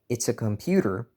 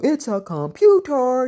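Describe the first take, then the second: First: It is said in a plain, matter-of-fact tone. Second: It is said with a conniving, arrogant gusto. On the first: This is how the message was meant. The speaker calls it right. "I didn't write it like that" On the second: This is how someone else read the message. The speaker calls it wrong. "She said it with all this gusto"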